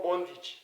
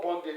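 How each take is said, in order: First: Bondage ending in a short I, "BON-didge". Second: Bondage with an E in the ending, "BON-dedge"; mistaken pronunciation. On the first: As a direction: say bondage as "bondidge". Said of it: "it's called bondage". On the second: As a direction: end bondage in "-edge". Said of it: "it's not called bondage". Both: Shown as a demonstration.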